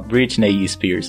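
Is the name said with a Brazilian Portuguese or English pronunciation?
Brazilian Portuguese. The name is said with Brazilian Portuguese sounds. The speaker calls it wrong. "você não pode falar Britney Spears"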